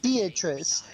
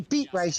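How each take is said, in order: First: The name is said the usual way. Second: The name is said like beat plus rice. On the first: The speaker calls it right. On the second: The speaker calls it wrong.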